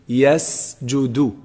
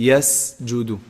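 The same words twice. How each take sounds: First: The consonant before the j sounds like s. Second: The consonant before the j sounds like s.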